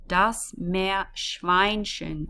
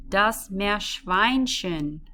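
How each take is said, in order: First: "Meerschweinchen" drawn out, syllable by syllable; deliberate teacher model; slow and careful. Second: Slow and careful. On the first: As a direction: spell out the mouthful slowly. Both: Shown as a demonstration. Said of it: "this is a bit of a mouthful".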